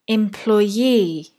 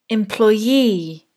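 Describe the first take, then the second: Both takes have the same delivery.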